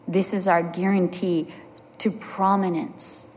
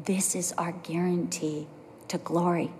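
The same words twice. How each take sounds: First: Said in the usual way. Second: Soft whispered promise. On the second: Shown as a demonstration. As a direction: breathe the words almost silently. Preacher drops to a hush.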